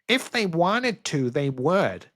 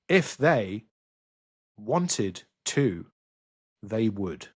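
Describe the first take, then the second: First: It is said in an American accent. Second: It is said in a non-American accent.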